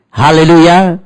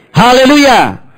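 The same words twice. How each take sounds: First: Loud, high hallelujah shout; hallelujah call. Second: Much higher, loud hallelujah cry. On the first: Pastor calls hallelujah to the congregation. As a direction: call it out to the church. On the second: Pastor raises Haleluya higher for the congregation. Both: Acted.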